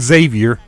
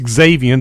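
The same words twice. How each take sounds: First: The name begins with a z sound. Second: The name begins with a ks sound. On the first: The speaker calls it wrong. "where you don't pronounce the X" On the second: The speaker calls it right. "You do pronounce the X"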